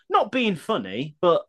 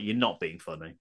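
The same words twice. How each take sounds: First: High, drawn-out quoted phrase; mock preamble. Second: Low, soft put-down; dry retort. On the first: Host reading out a listener's hated phrase, mock preamble. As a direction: lift the pitch and stretch it, rising at the end. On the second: Real, not acted. Host answering the hated phrase, dry retort. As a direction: drop it down low and quiet.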